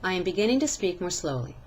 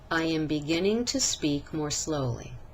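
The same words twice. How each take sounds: First: It is spoken quickly with short vowels. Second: It is spoken slowly with stretched vowels. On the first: The speaker calls it wrong. "In the first sentence, I said the words quicker, which means that the vowels were shorter" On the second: The speaker calls it right. "In the second sentence, I spoke at a more appropriate rate by stretching"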